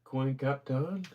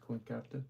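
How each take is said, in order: First: Reading an odd name slowly, rising; drawn-out baffled question; puzzled slow read. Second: Softer, checking the name again; half-voiced second try at the name; quiet recheck. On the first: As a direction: sound out a strange name, puzzled. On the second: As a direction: mutter it back to yourself, unsure. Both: Real, not acted. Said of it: "Is that what that says?".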